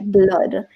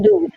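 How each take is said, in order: First: The vowel is a short 'uh' sound. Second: The vowel is a long 'oo' sound. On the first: The speaker calls it right. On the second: The speaker calls it wrong.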